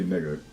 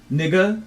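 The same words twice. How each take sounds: First: Said in the usual way. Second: "Nigga" pitched way up and louder, rising like a question; wrong way. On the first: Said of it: "you say". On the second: Shown as a demonstration. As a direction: say "Nigga" high with an unsure upward lilt. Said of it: "You don't say, like".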